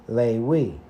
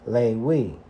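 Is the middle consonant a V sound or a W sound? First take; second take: W; W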